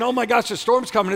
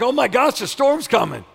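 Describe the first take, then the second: First: High-pitched worried reaction; hammed-up "oh no" delivery; mock alarm. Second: Loud, high, thrilled exclamation; acted eager anticipation; excited welcome. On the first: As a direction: imitate someone dreading bad news. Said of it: "instead of saying". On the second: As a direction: cry it out as wonderful news. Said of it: "it's like".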